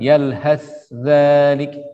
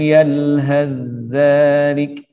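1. Bunyi 'th' terdengar jelas dengan desisnya. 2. Bunyi 'th' sepenuhnya melebur ke dalam 'dh' setelahnya. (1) "membaca dengan izhar. Tidak diidghamkan" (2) "Di sini Tariq Asy-Syatibiyah dibaca idgham. Jadi sa-nya totalitas idgham kamil"

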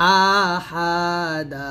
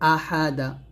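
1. স্বরগুলো টেনে দীর্ঘ করা হয়। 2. স্বরগুলো ছোট রাখা হয়। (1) "এরকম টানবেন না" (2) "হরকত টান দিয়ে পড়াই যাবে না"

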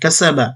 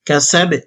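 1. শব্দটি শেষ হয়েছে স্বরবর্ণ 'a' দিয়ে। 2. শব্দটি শেষ হয়েছে ব্যঞ্জন 'b' দিয়ে। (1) "বা জবর বা" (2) "অকফের সময় বা সাকিন হয়ে যাবে"

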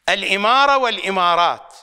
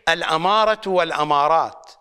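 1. الكلمة تبدأ بالحركة 'i'. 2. الكلمة تبدأ بالحركة 'a'. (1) "المرات التي أخطأت فيها بلفظ أهم مصطلح" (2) "واللفظ الصحيح"

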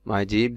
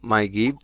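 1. দ্বিতীয় শব্দটি J sound দিয়ে শুরু হয়। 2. দ্বিতীয় শব্দটি G sound দিয়ে শুরু হয়।

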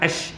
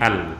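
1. L melebur ke dalam bunyi sh yang mengikutinya. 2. L dibunyikan dengan jelas sebagai bunyinya sendiri. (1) "dia tak bunyi Al-Syamsi, Ash" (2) "semua stesen saya rasa dia akan bunyi Al ... satu sebutan yang salah"

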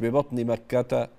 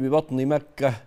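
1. الكلمة الأخيرة تنتهي بحركة. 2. الكلمة الأخيرة تنتهي بحرف ساكن. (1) "مش ببطن مكة" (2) "اللي عايزة تقفي على مكة تقولي ببطن مكة"

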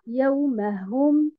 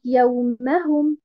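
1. L'accent tombe sur la syllabe hum. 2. L'accent tombe sur la syllabe ma. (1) "et non pas sur harakat al-ha" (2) "On met un nabr sur harakat al-mim"

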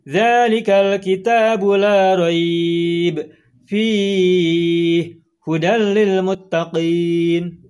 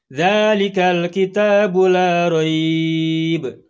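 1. Jeda ada setelah la raib dan setelah fihi. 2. Jeda ada tepat setelah la raib. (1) "tidak boleh berhenti di dua-duanya sekaligus" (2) "Itu kalau berhentinya pada titik tiga yang pertama, la raib"

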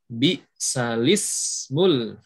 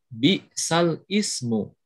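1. Hamzah dihilangkan, tersambung menjadi lismu. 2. Hamzah sebelum ismu diucapkan. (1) "memindahkan harokat hamzah kepada huruf sebelumnya" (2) "Kalau tidak ada nakal, dibacanya"

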